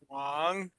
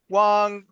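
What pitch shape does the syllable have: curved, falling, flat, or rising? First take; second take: curved; flat. First: The pitch dips down then curves up. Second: The pitch stays level and flat.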